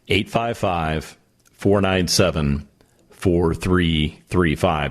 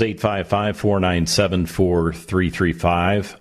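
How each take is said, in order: First: The number is read at a slower pace. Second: The number is read at a normal pace.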